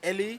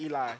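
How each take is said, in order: First: The name is said the Spanish way. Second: The name is said the American way. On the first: "a lot of like Spanish people they say" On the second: "but in the U S they say Eli"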